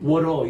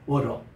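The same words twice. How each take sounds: First: It has an American accent with a flapped t. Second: It has a British accent with a clear t. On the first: "미국 사람 딱 가면 R로 바뀌어요" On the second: "영국식 발음이에요"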